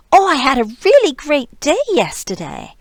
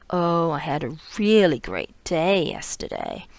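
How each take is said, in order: First: High, loud and bright with excitement; gushing, happy delivery; excited tone. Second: Flat sarcastic delivery, not really pleased; dry, sarcastic read. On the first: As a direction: sound thrilled about your day. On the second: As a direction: say it like the day was awful. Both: Shown as a demonstration. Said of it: "I'm saying it with a very different, um, prosodic tone".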